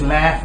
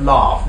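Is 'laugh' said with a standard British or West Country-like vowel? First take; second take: West Country; standard British. First: The vowel sounds like a West Country accent. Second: The vowel sounds like standard British English. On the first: "he says laugh" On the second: "instead of laugh"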